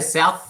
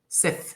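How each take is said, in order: First: The vowel sounds like standard English 'ow'. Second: The vowel sounds close to 'eh', like 'Seth'. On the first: "they don't say South" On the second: "they say Seth"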